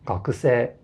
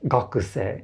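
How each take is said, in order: First: The pitch follows the native Japanese accent pattern. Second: The pitch follows an English-style stress pattern. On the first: The speaker calls it right. "instead of" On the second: The speaker calls it wrong. "the typical native English speaker will say these words like"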